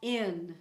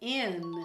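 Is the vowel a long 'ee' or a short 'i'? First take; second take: short i; short i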